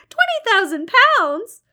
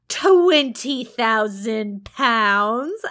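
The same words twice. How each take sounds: First: Twenty thousand pounds? much higher and louder, rising; mock astonishment. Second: Very slow, loud Twenty thousand pounds, savoured; drawn-out teasing. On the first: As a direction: toss Twenty thousand pounds back in hammed-up amazement. St John feigned astonishment. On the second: Acted. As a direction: stretch Twenty thousand pounds out to tease her. St John drawing out sum.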